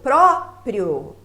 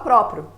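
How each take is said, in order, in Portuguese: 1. O som final do I é claramente ouvido. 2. O som final do I quase não se pronuncia. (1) "Veja que o O é mais forte" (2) "tem gente que fala próprio"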